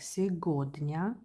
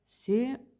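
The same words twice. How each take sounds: First: Сегодня read as written, г as g; spelling pronunciation. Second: Сегодня with г turned into a v; spaced-out syllables of сегодня, v for the written g; native pronunciation. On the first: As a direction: say сегодня as "segodnya", with a hard g. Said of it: "So I have to pronounce like". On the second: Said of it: "but Russian pronounce like". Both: Shown as a demonstration.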